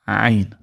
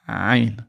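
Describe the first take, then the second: The two takes are said the same way.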